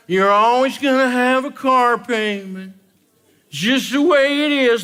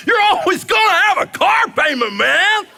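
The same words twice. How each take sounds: First: Said in the usual way. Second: Much higher, louder, cheering it out; celebratory. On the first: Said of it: "Nobody says it in a celebratory voice". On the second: Shown as a demonstration. Comedian mocking debtors, in a mock celebratory cheer. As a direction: sell it like great news. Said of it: "in a celebratory voice".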